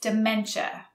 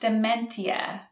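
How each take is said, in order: First: The middle consonant sounds like ch. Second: The middle consonant is a plain t sound. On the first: The speaker calls it right. "So the T sounds more like a CH" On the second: The speaker calls it wrong.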